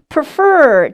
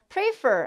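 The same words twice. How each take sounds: First: The stress is on the second syllable. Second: The stress is on the first syllable. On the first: The speaker calls it right. "뒷부분에 강세가 들어갑니다" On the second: The speaker calls it wrong. "아니고"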